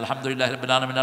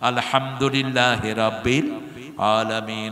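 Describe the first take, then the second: First: It is recited fast without pauses. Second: It is recited slowly with pauses.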